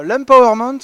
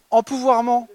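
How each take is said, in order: First: "l'empowerment" said the English way, as borrowed franglais; English word. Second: "Empouvoirment" said as a French word, em-pou-voir-ment; Frenchified word. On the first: Presenter mocking franglais, saying "l'empowerment" in English. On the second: Presenter offering a French word, "Empouvoirment" said as French. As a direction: give "Empouvoirment" fully French sounds. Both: Shown as a demonstration. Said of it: "le franglais, pas top".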